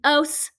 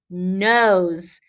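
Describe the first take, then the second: First: The word ends with a hissing s sound. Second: The word ends with a buzzing z sound. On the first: The speaker calls it wrong. "That doesn't sound right" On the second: The speaker calls it right. "I can add that z and see if it works better"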